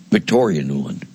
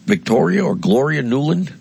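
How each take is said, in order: First: Victoria Nuland said lower and falling, sure now; confirming the name to himself; settled answer. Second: Victoria lifted high, the whole name rising as a question; groping for the name aloud; unsure rising question. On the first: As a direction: land on "Victoria Nuland" flatly, name recalled. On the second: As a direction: ask "Victoria or Gloria Nuland?" doubtfully, voice going up. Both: Real, not acted.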